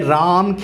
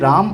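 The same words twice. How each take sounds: First: The vowel is drawn out long. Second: The vowel is said short and relaxed. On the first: "ये राम खींच के आएगा" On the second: "ये राम आराम से"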